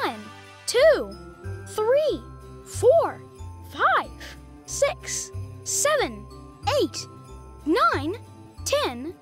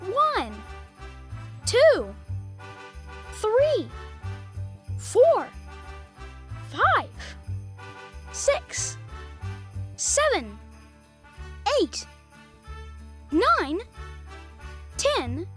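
First: The numbers are counted at a fast pace. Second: The numbers are counted at a slow pace.

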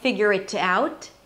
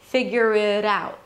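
First: The T in 'it' is a crisp, released T. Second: The T in 'it' is a soft, D-like flap. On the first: The speaker calls it wrong. "So I'm not saying figure it out, okay? I don't pronounce it as a real T" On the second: The speaker calls it right. "I pronounce it as a flap T, which sounds like a D or a very light D. Listen"

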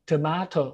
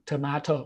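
First: It is said with a British accent. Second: The same.

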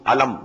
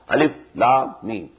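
First: The letters are run together as one word. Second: Each letter name is said separately. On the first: The speaker calls it wrong. "Not pronounced as" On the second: The speaker calls it right. "These are pronounced separately"

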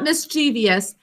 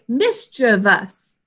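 First: The word has an extra syllable before the ending. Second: The word has no extra syllable before the ending. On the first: The speaker calls it wrong. "that's not the correct pronunciation" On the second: The speaker calls it right. "We say mischievous"

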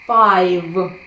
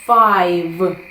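No difference in how they are said.

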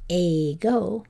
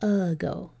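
First: The first vowel is a full vowel sound. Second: The first vowel is a relaxed schwa sound. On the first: "instead of being a go" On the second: "we say a go. That lazy old schwa"

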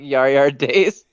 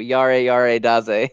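First: The words end without the added vowel. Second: The words end with an added vowel sound. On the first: The speaker calls it wrong. "He was like" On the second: The speaker calls it right. "You basically put A at the end of all of it"

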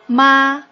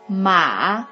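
First: The pitch stays high and level. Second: The pitch dips low and then rises. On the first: It means mother. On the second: It means horse.

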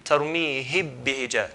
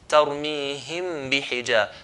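First: The m is merged fully into the following b. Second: The m is touched briefly, then clearly released. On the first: "if we do the idgham way, similar here, to merge them" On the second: "in an ivhar way, which means to just touch the meem then let go"

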